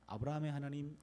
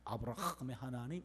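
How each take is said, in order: First: The h in Abraham is soft and smooth. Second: The h in Abraham scrapes in the throat. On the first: "우리 부드럽게 넘어갑니다" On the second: "목을 막 이렇게 긁으면서 나와요"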